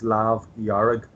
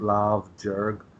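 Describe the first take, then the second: First: The second word begins with a y sound. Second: The second word begins with a j sound. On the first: The speaker calls it right. "When you're describing it with the with the red, it's Lav Yarrig" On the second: The speaker calls it wrong.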